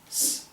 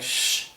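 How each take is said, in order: First: The consonant is a thin, sharp hissing sound. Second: The consonant is a hushing sh-like sound. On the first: The speaker calls it right. "the correct pronunciation is just, just s" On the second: The speaker calls it wrong. "Even if it's like sh"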